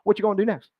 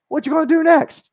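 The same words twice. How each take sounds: First: The question is said shortened, with words run together. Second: The question is said in its fuller form. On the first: "You can even shorten it up" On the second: "Don't overthink this"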